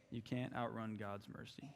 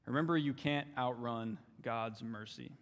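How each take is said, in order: First: Much softer, settling the point; softer echo. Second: Said in the usual way. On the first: Real, not acted. Preacher repeating to his church, softly. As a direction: drop it low and let it land. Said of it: "quiet repeat of line 16". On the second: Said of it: "repeated for emphasis".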